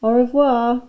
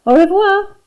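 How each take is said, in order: First: Deliberately English-sounding French; un-French accent. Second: High, loud, sung-out farewell with AU REVOIR; calling after. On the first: Dennis calls back to his teacher, in un-French accent. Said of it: "in the most un-French accent he could manage". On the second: Teacher bids Dennis goodbye as he leaves, calling out. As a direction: call a bright French goodbye after someone. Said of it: "she called after him". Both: A narrator's reading.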